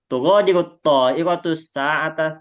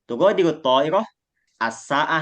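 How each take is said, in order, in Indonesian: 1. Kata-katanya disambung tanpa jeda. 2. Kata-katanya dipisah menjadi frasa-frasa terpisah. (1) "dibaca seperti ini. Itu sebenarnya tidak salah" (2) "sa'ahnya itu masuknya sendiri jadinya, nggak digabung"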